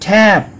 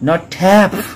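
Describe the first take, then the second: First: The final p has no puff of air. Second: The final p has a puff of air. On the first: The speaker calls it right. "এটা প উচ্চারণ আসবে শেষে" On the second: The speaker calls it wrong. "ফ বলা যাবে না"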